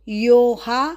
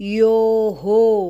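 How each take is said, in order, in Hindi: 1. अंत को 'a' स्वर के साथ दोहराया जाता है। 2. अंत को 'o' स्वर के साथ दोहराया जाता है। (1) "यो हा नहीं बोलना है"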